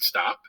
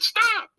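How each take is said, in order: First: It is said at a normal, quieter level. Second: It is shouted loudly and forcefully.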